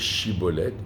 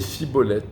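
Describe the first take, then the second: First: The word begins with a sh sound. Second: The word begins with an s sound. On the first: This is the form the Gileadites asked for. The speaker calls it right. "ils n'arrivaient pas à dire chibolette" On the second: This form reveals the speaker is from Ephraim. The speaker calls it wrong. "ils disaient cibolette"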